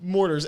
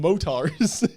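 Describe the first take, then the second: First: The word has an r after the first vowel. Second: The word has no r after the first vowel. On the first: The speaker calls it right. "Mortars, M O R" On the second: The speaker calls it wrong. "Why do you call them motars?"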